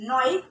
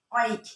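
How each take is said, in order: First: নয়িক with an initial n; preferred pronunciation. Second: অয়িক without the initial n; alternative pronunciation. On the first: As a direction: start নয়িক on a clear "n" sound. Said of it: "নয়িক বললে জিনিসটা অনেক ভালো হয়". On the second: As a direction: start অয়িক straight on the open vowel. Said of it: "অয়িকও অনেকে বলতে পারে". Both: Shown as a demonstration.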